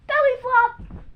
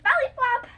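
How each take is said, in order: First: Belly flop shouted high as you jump; excited call. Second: Excited call. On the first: Kid demonstrating the jump shout for viewers. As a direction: launch it on the countdown. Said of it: "It goes like this". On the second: Kid showing viewers how to shout while jumping. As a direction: shout belly flop high and bright mid-jump. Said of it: "you go like". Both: Shown as a demonstration.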